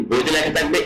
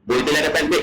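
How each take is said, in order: Both takes have the same delivery.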